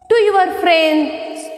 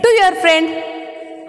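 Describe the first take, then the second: First: "friends" with a final s; plural slip. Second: "friend" with no final s; corrected singular. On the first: Teacher misreading the line to children, "friends" ending in s. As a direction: end "friends" on an s sound. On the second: Teacher correcting her reading for children, "friend" ending without s. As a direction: end "friend" on the d, no s. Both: Shown as a demonstration. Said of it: "Friends, no. Friend".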